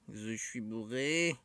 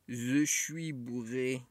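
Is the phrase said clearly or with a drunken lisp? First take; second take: drunken lisp; drunken lisp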